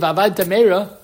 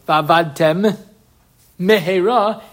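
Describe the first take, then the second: First: Said quickly, with the two m sounds merged. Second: Said carefully, with both m sounds kept apart.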